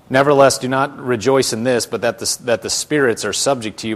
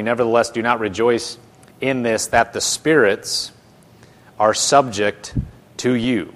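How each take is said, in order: First: Loud, continuous reading of the verse; scripture reading. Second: Loud, broken up with pauses before "are subject" and "to you"; emphatic phrasing. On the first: Acted. Preacher reading verse twenty to his class, scripture reading. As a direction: read it straight through with firm emphasis. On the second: Shown as a demonstration. Preacher pointing out verse twenty, emphatic pauses before "are subject" and "to you". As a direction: punch "spirits" and "subject", pausing between phrases.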